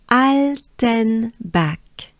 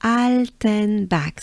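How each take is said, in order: First: "Alten" stretched very slowly with an open French A; drawn-out demo, "Alten" with a French a; slow model of "Alten back". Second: "Alten back" slow, with an open French A; teacher repeats "Alten back" slowly. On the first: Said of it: "that's the key, it's the French A". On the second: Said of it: "it's the French A". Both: Shown as a demonstration.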